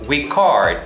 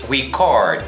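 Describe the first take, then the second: First: It is said with the verb pronunciation. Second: The same.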